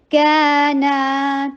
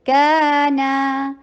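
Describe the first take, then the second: First: کانا very slow, both ا long; stretched madd. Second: کانا very slow, each ا two counts. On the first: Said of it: "stretch بھی ہو رہا ہے کیونکہ مد ہے". (کانا میں دونوں الف کھینچ کر) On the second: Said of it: "دونوں ٹو ٹو حرکہ لانگ ہوں گے". (کانا میں ہر الف دو حرکت) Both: Shown as a demonstration.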